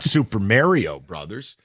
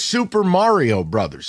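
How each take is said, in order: First: The first syllable of Mario sounds like 'merry'. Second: The first syllable of Mario sounds like 'car'. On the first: The speaker calls it wrong. "not Super Mario Brothers" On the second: The speaker calls it right. "It's Super Mario Brothers"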